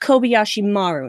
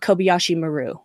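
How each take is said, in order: First: Maru is stressed on its first syllable. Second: Maru is stressed on its second syllable. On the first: The speaker calls it right. "Japanese words always have the emphasis on the first syllable. So it's" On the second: The speaker calls it wrong.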